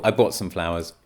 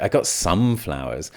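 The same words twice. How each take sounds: First: Said in the usual way. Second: "some" stretched and leaned on, hinting not enough; stress on some. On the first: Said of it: "Nice and simple". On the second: Shown as a demonstration. Teacher shows a hidden message, stress on "some". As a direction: lean hard on the word "some". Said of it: "You're emphasizing the limitation".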